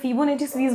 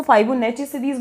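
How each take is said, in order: First: "Fibonacci" said as "FEE-bo-NET-chi"; alternative pronunciation. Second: "Fibonacci" said as "FAI-bo-NET-chi"; others' pronunciation. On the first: Teacher showing another common way, "Fibonacci" as "fi-bo-netchi". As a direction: start "Fibonacci" with a short "fi", not "fai". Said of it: "लेकिन मुझे Fibonacci series convenient". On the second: Teacher showing how some people say it, "Fibonacci" as "fai-bo-netchi". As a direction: start "Fibonacci" with a "fai" sound, end in "chi". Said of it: "कुछ लोग इसको Fibonacci series बोलते हैं". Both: Shown as a demonstration.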